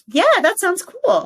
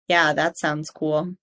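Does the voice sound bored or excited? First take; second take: excited; bored. First: The voice is higher and lively, sounding excited. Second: The voice is flat and low, sounding bored. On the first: The speaker really finds it cool. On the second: The speaker does not really find it cool.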